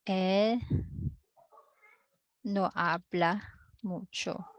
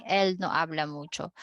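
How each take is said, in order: First: Halting, with a long pause after El; slow dictation. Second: Said in the usual way. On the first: Shown as a demonstration. Teacher writing the Spanish answer for the class, slow dictation. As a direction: say it in separate pieces, as if writing it out.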